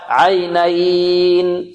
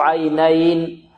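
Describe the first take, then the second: First: The long vowel is held for six counts. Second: The long vowel is held for two counts. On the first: "6 حركات" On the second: "نقرأ بحركتين"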